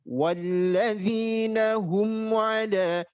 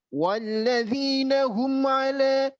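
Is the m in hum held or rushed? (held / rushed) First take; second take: held; rushed. First: The m in hum is held steadily before moving on. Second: The m in hum is rushed into the next word. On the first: The speaker calls it right. "Mimnya harus mantap dulu" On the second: The speaker calls it wrong. "Tidak boleh dibaca; terburu-buru"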